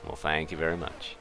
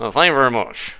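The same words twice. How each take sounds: First: Lightly voiced [name]. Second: [name] voice. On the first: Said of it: "That was more [name] there". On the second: Pretend. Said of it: "That was a touch more [name]".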